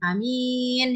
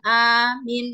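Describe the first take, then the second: First: Only the second vowel is lengthened. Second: Only the first vowel is lengthened. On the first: It means trustworthy and honest. "A-nya pendek, kemudian mimnya panjang" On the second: It means asking for protection and security. "alifnya panjang, mimnya pendek"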